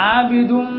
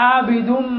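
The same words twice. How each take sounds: No difference in how they are said.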